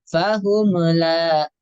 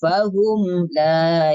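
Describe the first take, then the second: First: The m bounces with a short added vowel. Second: The m closes smoothly with no added vowel. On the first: The speaker calls it wrong. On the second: The speaker calls it right.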